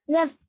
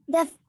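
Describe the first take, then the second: Both takes have the same delivery.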